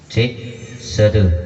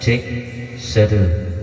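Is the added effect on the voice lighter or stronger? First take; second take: lighter; stronger. First: The voice has a moderate effect with faint delay. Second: The voice has a heavier effect and sounds cluttered. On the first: "ini sudah bercampur efek dan delay. Tapi untuk delaynya nggak begitu jelas dan efeknya lumayan" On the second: "Coba kita naikkan efeknya ya ... Tapi agak sedikit gaduh suaranya"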